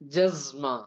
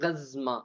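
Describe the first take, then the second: First: The word begins with a j sound. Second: The word begins with a hard g sound. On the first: This is the Saudi dialect form. "சவுதியா இருந்தா ஜஸ்மான்னு சொல்லுவாங்க" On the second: This is the Egyptian dialect form. "Egyptian same but pronunciation மாறும்"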